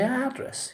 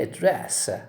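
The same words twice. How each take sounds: First: It is stressed the way the noun is. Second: It is stressed the way the verb is. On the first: The speaker calls it wrong. "you don't say address" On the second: The speaker calls it right. "you say address"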